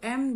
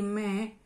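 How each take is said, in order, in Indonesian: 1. Huruf tersebut diucapkan sebagai em. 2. Huruf tersebut diucapkan sebagai me. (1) "Kalau kita kayak sama di sama abjad Inggris kita sama penyebutannya kayak M" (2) "mereka itu M jadi me"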